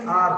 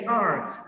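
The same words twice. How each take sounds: First: "R" said as a plain "ah"; "R" with the r dropped; flat-tongued R. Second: "R" with the tongue curled up; "R" with tongue to the palate; rolled R. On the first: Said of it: "I don't say R". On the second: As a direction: say "R" with a sounded final r. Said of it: "I say R". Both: Shown as a demonstration.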